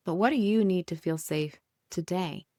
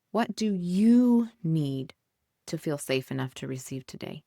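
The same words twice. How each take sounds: First: Said in the usual way. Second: Drawn-out, weighted question; slow, emphatic question. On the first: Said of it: "the question repeated". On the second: Shown as a demonstration. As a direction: ask it slowly, letting each word land. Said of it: "asks the question, then repeats it".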